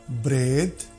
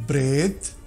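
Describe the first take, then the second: The two takes are said the same way.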